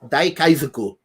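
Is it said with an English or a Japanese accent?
Japanese. It is said with a Japanese accent.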